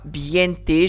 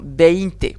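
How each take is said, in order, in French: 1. Les voyelles après la première consonne sonnent comme 'ie'. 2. Les voyelles après la première consonne sonnent comme 'ei'. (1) "Je dis pas biente" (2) "Non, veinte"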